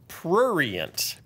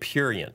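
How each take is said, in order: First: An r sound follows the p. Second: No r sound follows the p. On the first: The speaker calls it right. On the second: The speaker calls it wrong. "I was wrong. I was saying it purient"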